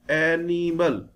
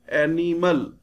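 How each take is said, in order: The two takes are said the same way.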